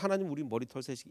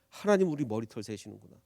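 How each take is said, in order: First: It sounds flat and indifferent. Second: It sounds moved and amazed.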